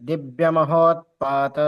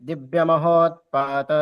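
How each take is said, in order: Both takes have the same delivery.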